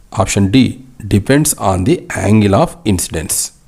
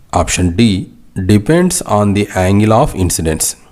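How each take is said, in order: Both takes have the same delivery.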